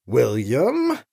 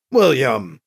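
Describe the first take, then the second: First: Lower, questioning warning on the name; understated displeasure, name left hanging upward; displeased. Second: Lower, falling, firm rebuke; mildly angry warning, dropping on the name. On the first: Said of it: "communicate volumes of displeasure". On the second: Anita cuts William off by name, authentically angry but contained. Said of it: "Anita sounded authentically angry now". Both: A narrator's reading.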